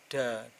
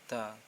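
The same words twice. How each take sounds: First: The consonant is a clear, distinct D. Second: The consonant is blurred between D and T. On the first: The speaker calls it wrong. "Jangan di di bagian ini da" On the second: The speaker calls it right. "tapi agak-agak disamarkan da"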